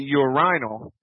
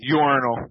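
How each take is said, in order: First: It is said with a British pronunciation. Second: It is said with an American pronunciation. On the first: "I hear English fellows say urinal" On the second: "in the States we call it urinal"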